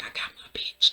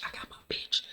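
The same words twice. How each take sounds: First: Whispered, smug and satisfied. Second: Barely breathed, even fainter whisper. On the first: Kane gloating to himself after winning Monet, smug whisper. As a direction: whisper it to yourself, pleased. His look after the kiss. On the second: Kane savoring his win, barely breathed whisper. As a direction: let it fade to a breath. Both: Retold or imitated.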